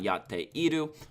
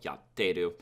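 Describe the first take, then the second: First: The middle vowel is kept, giving four syllables. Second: The middle vowel is dropped, giving three syllables. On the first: "why it's not yatteiru" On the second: "you drop the e"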